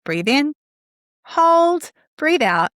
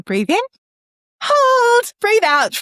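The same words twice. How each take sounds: First: "Breathe in" rising, then "hold" held long and higher before "breathe out"; guided breath cue with a held "hold"; mantra with pause. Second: "hold" lifted much higher and louder, "breathe out" falling; lilting, louder breath chant; sing-song mantra. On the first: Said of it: "add a pause at the top". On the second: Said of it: "you could even do it like that". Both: Shown as a demonstration.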